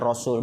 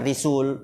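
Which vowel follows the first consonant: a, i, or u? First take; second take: a; i. First: The first vowel is a. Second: The first vowel is i. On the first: The speaker calls it right. "itu dibaca Rasul" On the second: The speaker calls it wrong. "bukan Risul"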